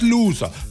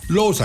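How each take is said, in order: First: The first vowel is an English 'oo' sound. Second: The first vowel is a German 'oh' sound. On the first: Someone who loses. "Der Loser ist ja der, was verliert" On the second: Someone who draws the lots. "der Loser ist der, wo an die Kugeln dran darf"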